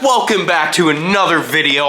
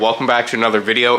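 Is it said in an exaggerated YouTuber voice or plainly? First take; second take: exaggerated YouTuber; plain. First: It is said in an exaggerated YouTuber voice. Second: It is said in a plain, natural voice.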